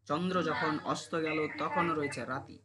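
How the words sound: The voice stops after the end of the line. "থেমে গেছিস।"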